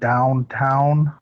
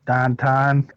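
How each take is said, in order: First: It is said in a standard accent. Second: It is said in a Pittsburgh accent.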